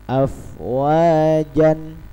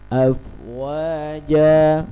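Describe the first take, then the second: First: The word ends with an n sound. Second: The word ends on a plain vowel. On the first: The speaker calls it wrong. "bukan afwajan" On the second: The speaker calls it right. "tapi afwaja"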